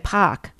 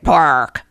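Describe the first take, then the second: First: It is said with a Boston accent. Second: It is said with a hard New York R.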